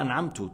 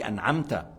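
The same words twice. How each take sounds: First: The word ends with a 'u' vowel. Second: The word ends with an 'a' vowel. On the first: The speaker claims to have granted the favour. The speaker calls it wrong. "tu dis pas أنعمت / الذي يقرأ أنعمت بالضم" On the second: God is the one who granted the favour. The speaker calls it right. "tu dis أنعمت"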